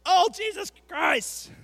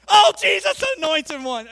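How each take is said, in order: First: Loud, high, drawn-out movie curse; hammed-up slow outburst of swearing; mock exclamation. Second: Loud, high-pitched hammed-up outburst; mock exclamation. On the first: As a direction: shout it slowly like an exasperated oath. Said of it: "They're like". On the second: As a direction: shout it as an overblown mock oath. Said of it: "do they say it like that".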